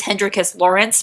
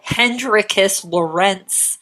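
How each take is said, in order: First: "Lawrence" stressed on the first syllable; Lawrence pronunciation. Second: "Lorentz" stressed on the second syllable; Lorentz pronunciation. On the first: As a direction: say "Lawrence" briskly as LAW-rence. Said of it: "Actually, it's Hendrikus Lawrence". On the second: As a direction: slowly savour "Lorentz" as lo-RENTS. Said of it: "also known as Lorentz". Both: Shown as a demonstration.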